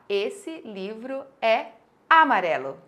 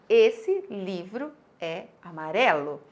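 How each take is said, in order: First: Amarelo is stressed on a syllable other than re. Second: Amarelo is stressed on the syllable re. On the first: The speaker calls it wrong. "eu forcei uma acentuação tônica da palavra amarelo" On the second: The speaker calls it right. "o acento tônico dela é na sílaba ré"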